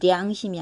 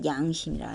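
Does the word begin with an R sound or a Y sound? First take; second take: R sound; Y sound. First: The word begins with an R sound. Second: The word begins with a Y sound. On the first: The speaker calls it wrong. "량심이 아니라" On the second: The speaker calls it right. "양심이라 하죠"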